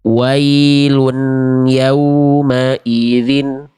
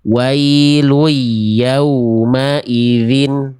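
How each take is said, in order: First: The n before yauma is clearly pronounced. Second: The n merges into the following y sound. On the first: "Karena nunnya masih dibaca jelas" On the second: "Saya sekarang udah lebur"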